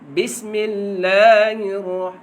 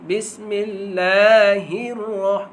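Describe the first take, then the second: Both takes have the same delivery.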